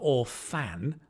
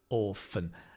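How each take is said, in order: First: The second syllable has a full, clear vowel. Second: The second syllable has a weak, reduced vowel. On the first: The speaker calls it wrong. "Notice it's not orphan" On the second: The speaker calls it right. "The fan becomes fun because it's not stressed"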